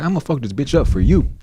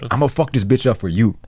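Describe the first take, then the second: First: It is said in a milder, less aggressive way. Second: It is said in a more aggressive, forceful way. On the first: The speaker calls it wrong. "Is that a good impression of your dad?" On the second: The speaker calls it right. "a little more aggressive"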